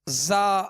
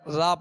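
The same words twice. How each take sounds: First: The z sound has a whistling hiss. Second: The z sound has no whistling hiss. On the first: The speaker calls it right. "मिसाल के तौर पे हमने ज़ा पढ़ा" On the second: The speaker calls it wrong. "अगर इसमें सीटी की आवाज़ पैदा ना की"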